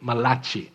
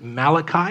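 First: The name is said in an Italian style. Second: The name is said the usual English way. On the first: "if you're Italian, you have the freedom to pronounce it Malachi" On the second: "we typically pronounce it Malachi"

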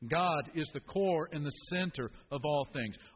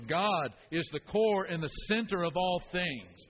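First: It is said with plain, modest energy. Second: It is said loudly with lots of energy.

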